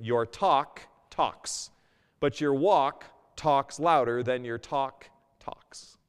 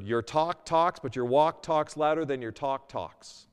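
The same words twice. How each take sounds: First: Your talk talks said very slowly, each word weighted; slowed-down punchline repeat; slow emphatic repeat. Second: Said in the usual way. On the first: Shown as a demonstration. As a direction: savor the wordplay slowly. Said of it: "Let me say that again". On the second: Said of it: "Here's a phrase I heard".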